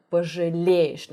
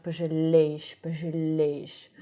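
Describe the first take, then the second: First: "пожалеешь" with a correct lowered л. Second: "пожалеешь" with the л not lowered; wrong L. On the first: Teacher correcting the L, lowered sound. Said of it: "l should be lower". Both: Shown as a demonstration.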